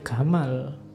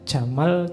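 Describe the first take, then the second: First: It begins with a hard g sound, Egyptian style. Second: It begins with a soft j sound.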